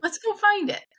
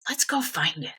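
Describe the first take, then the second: First: Very high, playful echo of Dad; re-enacted keen reply, pitched way up; eager agreement. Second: Dad's settled, matter-of-fact suggestion; retold fatherly proposal at ordinary pitch; imitated dad. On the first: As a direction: chirp it back, game for the hunt. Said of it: "And I was like". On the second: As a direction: propose it evenly, as the father would. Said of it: "one Saturday afternoon, he said".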